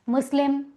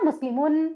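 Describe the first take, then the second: First: The word ends without the final -un sound. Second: The word ends with a final -un sound. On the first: This is a simpler everyday way of saying it. "मुस्लिमुन की जगह मुस्लिम कह देते हैं" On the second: This is the full form as written. "वैसे तो हम पढ़ रहे हैं ना मुस्लिमुन"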